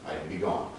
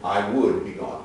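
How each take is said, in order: First: Would is shortened to a d sound. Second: The word would is said in full. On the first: "I'd is a contraction or shortening" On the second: "So we start here"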